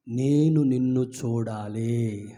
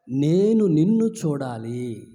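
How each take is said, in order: First: Slow, low pleading; humble plea. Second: Slow, firm, నిన్ను stressed; preacher echoing the beggar's longing; stress on you. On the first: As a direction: blind beggar begging Jesus for sight. Blind beggar's plea to Jesus. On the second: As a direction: lean on నిన్ను, slowly. Preacher repeats the plea. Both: Acted.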